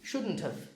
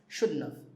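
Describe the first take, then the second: First: The T at the end of shouldn't is pronounced. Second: The T at the end of shouldn't is dropped. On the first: "This becomes have" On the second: "when we say it fast, we even say shouldn't have. We leave the T out"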